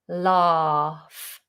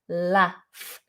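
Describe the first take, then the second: First: The vowel is long, like in 'father'. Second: The vowel is short, like in 'cat'. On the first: "we do a long vowel R" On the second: "it's with a short vowel"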